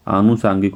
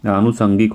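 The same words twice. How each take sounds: First: आनुषांगिक with long aa in the middle syllable, saang; wrong spelling said. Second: आनुषंगिक with short a in the middle, sang; the right form, said with a short middle vowel; correct form. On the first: Teacher sounds out the wrong form for students, long saang. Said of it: "सांगिक नहीं". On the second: Teacher gives students the correct form, short sang. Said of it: "आनुषंगिक होता है". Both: Shown as a demonstration.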